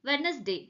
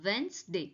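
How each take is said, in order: First: The first 'd' is clearly pronounced. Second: The first 'd' is left silent. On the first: The speaker calls it wrong. "வெட்னஸ்டேன்னு தப்பா pronounce பண்ணோம்" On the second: The speaker calls it right. "எப்படி சொல்லணும்னா வென்ஸ்டே"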